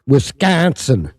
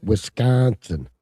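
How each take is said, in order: First: "Wisconsin" drawn out slowly, loud, falling. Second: "Wisconsin" slow, lower, stress moved; stress the right syllable. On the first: Teaching Mikey how to say it, slow and loud. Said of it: "That's how you say it". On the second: Correcting Mikey's pronunciation, slow and deliberate. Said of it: "put the emphasis on the right syllable". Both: Shown as a demonstration.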